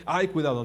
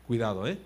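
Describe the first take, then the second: First: Louder, exaggerated "ay, careful"; mock alarm. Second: Low, weighty word of caution; respectful warning. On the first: Preacher showing the warning he does not mean, mock alarm. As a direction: feign a worried warning. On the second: Acted. Onlookers judging a person's words carry weight, respectful warning. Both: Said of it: "O sea, no de".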